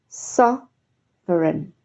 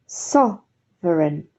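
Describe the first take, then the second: No difference in how they are said.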